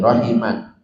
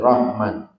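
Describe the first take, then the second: First: The h is followed by an i vowel. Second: The h has no vowel after it. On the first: "bi kasril ha dengan dibaca kasrahannya" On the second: "bisukunil hai dengan dibaca sukun"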